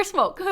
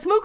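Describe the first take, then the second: First: "smoke" with a long o vowel; pronounced SMOKE. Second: "smook" with a long oo vowel; pronounced SMOOK. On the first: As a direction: say "smoke" like the English word. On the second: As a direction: say "smook" with an oo sound. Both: Shown as a demonstration. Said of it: "Is it smook or smoke?".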